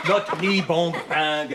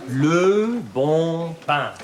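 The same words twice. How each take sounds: First: "le bon pain" as the pupil mangles it; imitating wrong accent. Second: "Le bon pain" very slow, in proper French; model pronunciation. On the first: French teacher quotes pupil's mistake, mimicking "le bon pain". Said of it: "Such an accent". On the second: Shown as a demonstration. French teacher models for pupil, drawn-out correct "Le bon pain". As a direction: draw out each word of "Le bon pain" for copying. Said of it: "Répétez".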